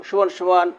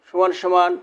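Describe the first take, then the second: Both takes have the same delivery.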